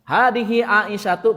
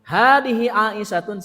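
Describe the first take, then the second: First: The last word ends in a plain vowel. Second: The last word ends with an n sound. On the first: The word is a person's name. "berarti nama" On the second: The word describes a living woman.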